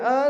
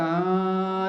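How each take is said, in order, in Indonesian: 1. Vokal itu diucapkan tanpa bunyi sengau. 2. Vokal itu diucapkan melalui hidung. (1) "a bunyi dia a tau" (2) "Bukan a tu hidung"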